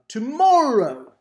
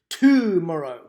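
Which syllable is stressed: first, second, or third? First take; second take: second; first. First: The stress is on the second syllable. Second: The stress is on the first syllable. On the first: The speaker calls it right. "sounds pretty close to the way we would pronounce tomorrow" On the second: The speaker calls it wrong. "the first and the third exaggeration just were really off"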